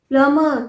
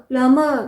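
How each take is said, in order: The two takes are said the same way.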